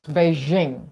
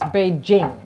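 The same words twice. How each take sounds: First: The j is a soft zh sound. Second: The j is a hard j sound. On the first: The speaker calls it wrong. "the J in French, Latin, is je, people pronounce Beijing" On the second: The speaker calls it right. "but it's Beijing"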